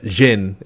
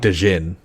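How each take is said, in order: First: It is said as one syllable, jin. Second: A separate d syllable comes before jin. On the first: The speaker calls it right. "Jin is how you say it" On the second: The speaker calls it wrong. "some people will say de gin, but it's not"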